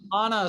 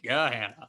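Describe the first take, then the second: First: It is said in a posh, upper-class way. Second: It is said in a plain Midwestern way. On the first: This sounds like a wealthier group's version. "sounds very um, upper class" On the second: This is how locals commonly say it. "like pretty, uh, you know, Midwestern"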